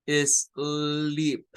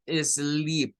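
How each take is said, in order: First: "sleep." repeated with a long ee and a falling end; model pronunciation. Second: "sleep," with a long ee and a falling end; model pronunciation. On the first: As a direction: say "sleep." once more as the model. ("sleep." repetido, i larga, final descendente) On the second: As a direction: present the new word "sleep," to the class. ("sleep," con la i larga) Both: Shown as a demonstration. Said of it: "vamos a el siguiente".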